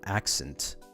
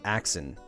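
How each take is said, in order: First: Every sound is pronounced, including a crisp T. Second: The T is dropped in a casual pronunciation. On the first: "you actually like pronounce the whole word" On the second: "instead of accent"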